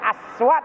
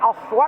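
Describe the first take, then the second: First: The s sound is plain and light. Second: The s sound is emphatic and heavy. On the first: "Hajar aswat dengan aswat beda dong. Kalau sin hitam" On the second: The word means voices or sounds. "Kalau sot itu artinya suara"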